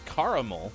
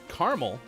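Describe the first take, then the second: First: The word is said with three syllables. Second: The word is said with two syllables.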